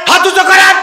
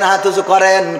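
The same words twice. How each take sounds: First: It is shouted angrily, without the tune. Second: It is said calmly, in a preaching tune.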